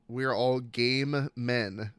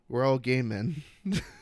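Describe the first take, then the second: First: The phrase is said at a slow, careful pace. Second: The phrase is said quickly, words running together.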